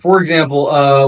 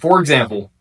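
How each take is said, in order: First: A filler 'uh' follows the phrase. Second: A silent pause follows the phrase.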